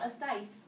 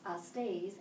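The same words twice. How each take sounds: First: "astais" ending in an eye-like diphthong; wrong ending. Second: "astes" ending in -ays, not -ais; correct ending. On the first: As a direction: say "astais" with -ais, as the mistake. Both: Shown as a demonstration. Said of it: "Not astais, astes".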